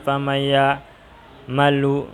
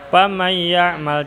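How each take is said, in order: First: The last word ends with a final u vowel. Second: The last word ends with no final vowel. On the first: The speaker calls it wrong. "tidak ada ceritanya" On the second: The speaker calls it right. "harus akhir katanya sukun"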